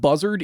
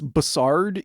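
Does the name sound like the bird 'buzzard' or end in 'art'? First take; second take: buzzard; ends in art. First: It sounds like the bird name buzzard. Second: It sounds like Bussy ending in art. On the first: The speaker calls it wrong. "It's not buzzard" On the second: The speaker calls it right. "It's like Bussy, but with art at the end"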